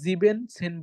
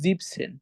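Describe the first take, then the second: First: The word starts with full 'sieben' before 'zehn'. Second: The word starts with short 'sieb' before 'zehn'. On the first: The speaker calls it wrong. "তখন আমরা জিবেন সেন বলবো না" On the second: The speaker calls it right. "তখন আমরা বলবো জিপসেন"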